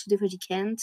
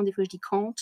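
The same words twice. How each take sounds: First: Can't said the American way, flat a like "kent". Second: Can't said the British way, long open a, /kɑːnt/. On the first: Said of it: "Des fois je parle américain". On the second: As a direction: say can't like a Londoner, broad ah vowel. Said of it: "l'accent britannique et l'accent américain". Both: Shown as a demonstration.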